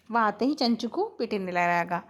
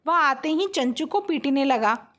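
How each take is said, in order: First: Said in the usual way. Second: आते ही lifted and pressed within the sentence; stress on ही. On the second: Shown as a demonstration. Teacher giving students an example sentence, stress on ही. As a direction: lean firmly on ही in आते ही. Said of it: "जिस शब्द में जोर देके किसी वाक्य को बोला जाए".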